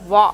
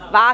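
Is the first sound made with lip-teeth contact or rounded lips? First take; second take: rounded lips; lip-teeth. First: The sound starts with rounded lips, no teeth contact. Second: The sound starts with teeth touching the lower lip. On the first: The speaker calls it right. "your lips should round" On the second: The speaker calls it wrong. "కాదు"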